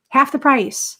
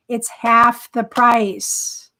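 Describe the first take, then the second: First: "Half" punched higher and louder; pitched-up echo stressing "Half"; emphatic repeat. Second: "half" stretched out and louder, very slow; slow, loud stress on "half"; emphatic reveal. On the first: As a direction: hit "Half" up high. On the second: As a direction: lean hard on "half", slowly. Excited reveal of the cheaper price. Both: Real, not acted.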